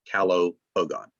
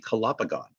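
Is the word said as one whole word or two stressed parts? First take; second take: two parts; one word. First: Each root, calo and pogon, is stressed separately. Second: It is said as one word with one stress. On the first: The word's roots are kept apart. "I would tend to emphasize the roots" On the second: It is treated as a single Latin word. "if it was a real Latin word"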